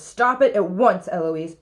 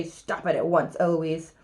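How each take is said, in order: First: Loud, sharp order, falling on the name; mildly acted rising temper; madder tutor. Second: Lower, deadpan echo; cool copycat mockery; mimicking the tutor. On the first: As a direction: command it to stop at once. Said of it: "he gets madder and says". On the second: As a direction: parrot the order back in a lowered voice. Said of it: "And then I say".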